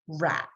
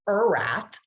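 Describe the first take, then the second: First: The word starts with a short, clipped r sound. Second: The word starts with a drawn-out 'er' sound. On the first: The speaker calls it right. "We say r at" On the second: The speaker calls it wrong. "We don't say er at"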